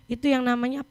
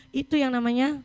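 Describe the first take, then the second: No difference in how they are said.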